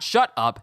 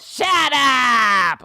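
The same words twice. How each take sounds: First: It is said in an ordinary, plain voice. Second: It is said in an exaggerated cartoon voice. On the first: The speaker calls it wrong. "Not shut up" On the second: The speaker calls it right. "Like, Looney Tunes"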